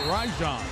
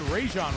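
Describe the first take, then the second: First: The first syllable sounds like 'ry'. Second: The first syllable does not sound like 'ry'. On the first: This is how the player himself says it. The speaker calls it right. "the correct pronunciation ... like R Y" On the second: This is the commonly heard pronunciation. The speaker calls it wrong. "You've heard Rajon Rondo a lot"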